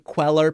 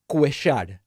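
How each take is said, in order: First: It is said with an anglicized English pronunciation. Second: It is said with an Argentine Spanish pronunciation. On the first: "In English, I try to anglicize it" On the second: "In Argentina, we would say his last name"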